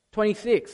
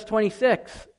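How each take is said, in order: First: Said in the usual way. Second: "twenty-six" with a light New Zealand vowel; a touch of New Zealand in "twenty-six"; slight New Zealand accent. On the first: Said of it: "sorry, that, that was a little bit". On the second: Real, not acted. Preacher citing "twenty-six" to the congregation, slight New Zealand accent. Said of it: "a little bit of a New Zealand accent".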